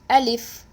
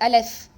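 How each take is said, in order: First: The second vowel sounds like i. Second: The second vowel sounds like e. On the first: The speaker calls it right. "It is Alif. The lam has a kesra" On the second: The speaker calls it wrong. "Some people do recite Aleph"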